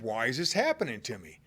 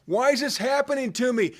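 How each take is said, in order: First: Softer, lower inward question; quiet wondering. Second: Anguished cry. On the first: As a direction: ask it quietly to yourself. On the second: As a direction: throw the question up at the sky. Psalmist crying out. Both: Acted.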